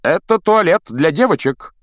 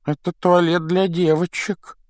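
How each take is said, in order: First: Louder words pushed through clenched teeth; through gritted teeth. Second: Put-on high wispy ghost girl. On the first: A narrator's reading. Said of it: "процедил он сквозь зубы". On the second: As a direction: play the moping ghost girl. Ghost girl Myrtle speaks.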